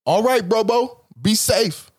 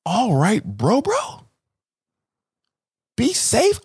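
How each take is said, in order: First: Casual black goodbye; a relaxed "bro, bro" sendoff; black slip. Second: Rising casual bro goodbye; black slip. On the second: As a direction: let the black voice slip out, climbing higher. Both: Retold or imitated. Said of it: "letting my black slip out".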